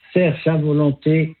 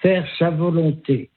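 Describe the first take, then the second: No difference in how they are said.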